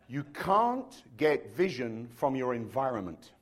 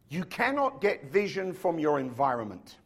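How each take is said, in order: First: It is said a little more slowly. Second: It is said at a normal pace.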